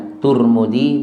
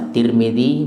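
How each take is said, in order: First: The first syllable has the vowel u. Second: The first syllable has the vowel i. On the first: "boleh baca" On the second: "Boleh baca"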